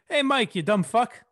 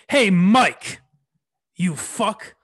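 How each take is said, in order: First: It sounds playful and teasing. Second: It sounds hostile and aggressive.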